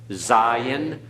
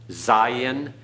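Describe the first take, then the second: Both takes have the same delivery.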